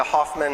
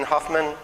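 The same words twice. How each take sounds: First: "Hoffman" said with an open AH in the first syllable. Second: "Hoffman" said with a short UH in the first syllable; Hoffman as Huffman. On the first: Speaker asks the audience for relatives, "Hoffman" pronounced HAHF-mun. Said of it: "Hoffman? Anybody?". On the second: Speaker offers audience the other name form, "Hoffman" pronounced HUFF-mun. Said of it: "Anybody related to Hoffman?". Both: Shown as a demonstration.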